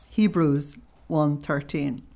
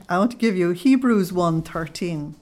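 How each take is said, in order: First: Slow, careful repeat of "Hebrews one thirteen"; slow dictation. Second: Said in the usual way. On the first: Real, not acted. Repeating the reference slowly for the audience to note.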